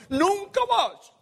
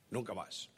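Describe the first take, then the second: First: High, louder, slow declaration; dramatic protest. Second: Low, soft and spent, voice much softer; weary surrender. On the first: Preacher voicing Jeremiah refusing God, high and slow. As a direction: throw it out like a stubborn vow. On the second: Jeremiah quietly telling God he quits, weary and soft. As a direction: let the words sink, defeated. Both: Retold or imitated.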